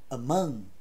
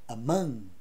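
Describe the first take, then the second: Both takes have the same delivery.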